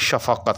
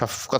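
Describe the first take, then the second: First: The middle consonant carries a short vowel. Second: The middle consonant has no vowel after it. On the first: This is the word's original form. "ये भी असल के अंदर शफ़क़त है" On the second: This is how people commonly say it. "अब हम सभी जो है वो शफ़क़त ... पढ़ते हैं"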